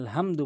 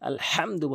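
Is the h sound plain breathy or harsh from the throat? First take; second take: breathy; throaty. First: The h is a plain light breathy sound. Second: The h is a harsh sound from the throat. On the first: The speaker calls it wrong. "অধিকাংশ লোক হা বলে, সূরা ফাতিহার ওখানে আলহামদু বলে" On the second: The speaker calls it right. "আলহামদু বলতে হবে, হাটি হলকের মাঝখান থেকে"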